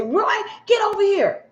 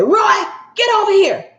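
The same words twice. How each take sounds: First: High, sharp call at normal volume; bossy wife calling. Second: High, loud barked summons; bossy wife calling. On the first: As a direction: summon him like a controlling wife. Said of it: "You hear his wife say". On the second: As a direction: order him over like a domineering wife. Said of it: "you hear his husband say". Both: Retold or imitated.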